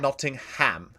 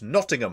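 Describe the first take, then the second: First: The h sound in the middle is pronounced. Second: The h sound in the middle is dropped. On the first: The speaker calls it wrong. "it's not Nottingham" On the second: The speaker calls it right. "You don't have to say the H"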